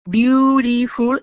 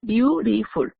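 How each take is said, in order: First: Beautiful drawn out slowly, syllable by syllable; unhurried teacher's demo; slow model word. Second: Said in the usual way. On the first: Shown as a demonstration. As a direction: say Beautiful slowly so students can count syllables. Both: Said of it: "it has three syllables".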